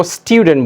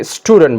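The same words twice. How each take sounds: First: "स्टूडेंट" with a "tyu" sound, like "styudent"; British pronunciation. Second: "स्टूडेंट" with a plain "too" sound, like "stoodent"; American pronunciation. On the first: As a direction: say "स्टूडेंट" as "स्ट्यूडेंट". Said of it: "British में हम इसको स्टूडेंट बोलेंगे". (British उच्चारण, "स्ट्यूडेंट") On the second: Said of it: "American वाले ये स्टूडेंट बोलते हैं". (American उच्चारण, "स्टूडेंट" में "टू") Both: Shown as a demonstration.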